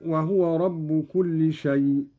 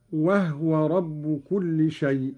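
First: Said in the usual way. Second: وهو said "wahwa", no vowel on the ه; silent-vowel ha. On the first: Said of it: "قرأ قالون بإسكان الهاء". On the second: Shown as a demonstration. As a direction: slowly, close وهو's first syllable on ه. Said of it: "بإسكان الهاء هكذا".

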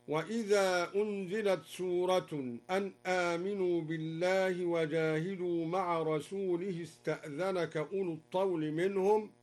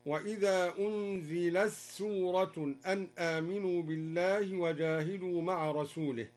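First: أنزلت سورة with a clear t before s; plain reading. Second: أنزلت سورة with the t merged into a doubled s; assimilated reading. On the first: (أنزلت سورة بإظهار التاء) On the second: (أنزلت سورة بإدغام التاء في السين) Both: Shown as a demonstration. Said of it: "أدغم تاء التأنيث في السين".

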